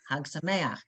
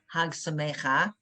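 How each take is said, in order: First: The word ends with the vowel before the ch. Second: The word ends with the vowel after the ch. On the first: The speaker calls it right. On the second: The speaker calls it wrong.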